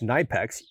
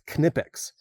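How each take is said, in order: First: The K blends into the N and is lost. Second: The K is sounded before the N. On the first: The speaker calls it wrong. "the American uh, pronunciation of K N together" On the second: The speaker calls it right. "these are German-made pliers, and so it's Knipex"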